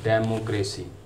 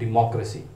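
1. यह दक्षिण एशियाई गैर-मूल (नॉन-नेटिव) लहजे में बोला गया है। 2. यह ब्रिटिश लहजे में बोला गया है, गोल 'mo' के साथ। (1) "इस लफ्ज़ को आमतौर पर डेमोक्रेसी पढ़ा जाता है" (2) "जो ब्रिटिश प्रोनाउंसिएशन है वो डिमोक्रेसी, डेमोक्रेसी नहीं"

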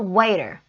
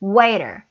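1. 가운데 자음은 부드러운 탄설음 D 소리입니다. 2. 가운데 자음은 부드러운 탄설음 D 소리입니다.

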